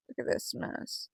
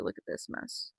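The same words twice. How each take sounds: First: Slow whisper. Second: Whisper. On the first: Whispered again, slower. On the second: Whispered about her hair. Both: Real, not acted.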